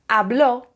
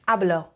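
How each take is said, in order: First: The stress is on the last syllable. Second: The stress is on the first syllable. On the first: He, she or it spoke. "it means he or she or it spoke" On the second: I speak. "it means I speak"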